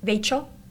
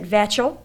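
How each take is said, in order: First: The name rhymes with Rachel. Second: The name rhymes with satchel. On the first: The speaker calls it right. "My name is just the same as Rachel. With V for R, please call me Vachel" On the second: The speaker calls it wrong. "My middle name rhymes not with satchel, so please do not pronounce it Vachel"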